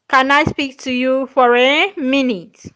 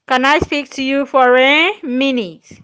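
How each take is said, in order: Both takes have the same delivery.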